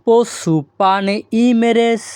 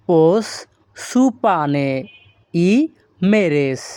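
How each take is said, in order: First: পোস সুপানে ই মেরেস run together in one flow; whole Greek phrase in one breath. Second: পোস, সুপানে, ই, মেরেস said apart with pauses; slow word-by-word Greek drill. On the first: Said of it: "আর যদি এই শব্দগুলো আমরা একসাথে বলি". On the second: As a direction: break পোস সুপানে ই মেরেস into single words. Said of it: "এখানে যদি আমরা ভেঙে ভেঙে বলি". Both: Shown as a demonstration.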